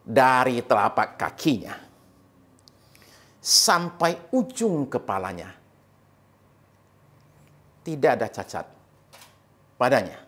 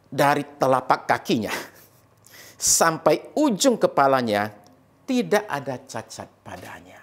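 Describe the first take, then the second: First: It is read slowly and deliberately. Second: It is read at a normal pace.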